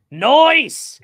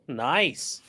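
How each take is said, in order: First: Nice drawled as noice, pitched high and loud; loud, high, drawn-out noice; exaggerated high Nice. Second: Said in the usual way. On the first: Shown as a demonstration.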